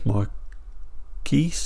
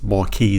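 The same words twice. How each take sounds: First: The word is pronounced the English way. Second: The word is pronounced the French way. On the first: "or in English" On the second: "I guess it's a French word, so I guess it's Marquis"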